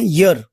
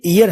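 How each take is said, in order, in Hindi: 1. यह शब्द एक साफ़ "y" ध्वनि से शुरू होता है। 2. यह शब्द एक सादी स्वर ध्वनि से शुरू होता है। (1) "सही तरीके से हम बोलते हैं ईयर, यानी ये जो वाई है यहाँ पे वो या की साउंड देता है" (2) "हम लोग पढ़ते ईयर है, लेकिन ये ईयर नहीं होता"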